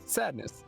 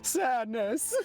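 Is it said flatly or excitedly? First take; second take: flatly; excitedly. First: It is said flatly, without excitement. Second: It is said excitedly, like an exclamation.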